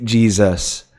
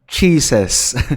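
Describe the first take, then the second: First: The word starts with a j sound. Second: The word starts with a ch sound. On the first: "hindi Jesus" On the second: "Ang naririnig ko actually na word"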